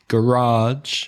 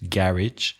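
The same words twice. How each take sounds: First: The stress is on the second syllable. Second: The stress is on the first syllable. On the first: "has the second syllable" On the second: "garage has the first syllable stressed"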